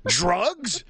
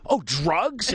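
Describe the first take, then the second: First: High, exaggerated mock-naive exclamation; mock loud blurt. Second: High-pitched dawning question; naive loud realization. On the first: Clueless dad asking the dealer too loudly, mock blurt. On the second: Retold or imitated. Tourist finally understanding the dealer, naive surprise. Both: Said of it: "And I said it, like, really loud".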